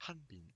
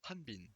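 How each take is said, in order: The two takes are said the same way.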